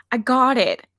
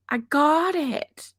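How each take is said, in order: First: Said in the usual way. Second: Slow, hushed whisper of realisation; a slow, whispered aha. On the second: Real, not acted. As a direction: breathe it out slowly as it dawns.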